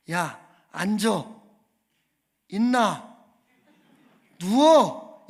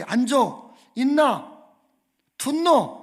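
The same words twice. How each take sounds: First: Loud, separate one-word commands; mock army orders, loudest on the last word; army senior's orders. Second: Loud barked commands in Jeolla dialect; Jeolla dialect orders. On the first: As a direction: imitate a drill order, with long gaps between commands. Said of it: "이렇게 이야기를 하는 겁니다". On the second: Retold or imitated. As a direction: imitate an army senior shouting orders in Jeolla dialect. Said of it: "갑자기".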